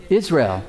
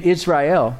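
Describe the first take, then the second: First: Said in the usual way. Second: "Israel" in three syllables, Is-rai-EL; fuller pronunciation. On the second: Shown as a demonstration. Preacher teaching the name, "Israel" pronounced IZ-rye-el. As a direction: say "Israel" as IZ-rye-el, sounding the final el.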